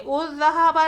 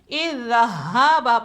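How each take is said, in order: First: The word begins with a u vowel. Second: The word begins with an i vowel. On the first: The speaker calls it wrong. "उज़्ज़हाबा नहीं" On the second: The speaker calls it right. "बल्कि इज़्ज़हाबा पढ़ेंगे"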